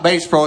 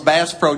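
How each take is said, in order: First: Bass has the long vowel, like the guitar. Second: Bass has the short a vowel, like the fish. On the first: It names the musical instrument. The speaker calls it wrong. "It's not Bass Pro" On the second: It names the fish. The speaker calls it right. "it's Bass Pro. ... Heavy on the A"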